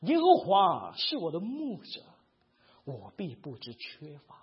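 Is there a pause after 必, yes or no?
no. It flows without a pause after 必.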